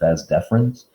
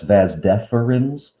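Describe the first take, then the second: First: Deferens is said with a vowel dropped. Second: Deferens is said with all three syllables. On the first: The speaker calls it wrong. "they drop the first E and they just pronounce it vas deferens" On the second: The speaker calls it right. "technically, that's vas deferens"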